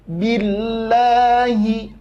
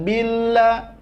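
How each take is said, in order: First: Billahi with the doubled lam pressed, slow; correct stressed Billahi. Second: Billah said without pressing the lam; wrong flat billah. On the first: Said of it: "itu namanya nabroh atau tekanan". (Billahi dengan nabroh pada lam) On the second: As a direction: skate over the lam in billah. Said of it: "bukan billah". (billah salah, tanpa tekanan) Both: Shown as a demonstration.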